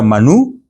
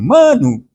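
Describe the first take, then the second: First: The stress is on the last syllable. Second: The stress is on the first syllable. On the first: The speaker calls it right. "Y era Manú" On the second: The speaker calls it wrong. "Pero tú decías Manu, en vez de Manú. ¿Qué sonaba? Como que era mano"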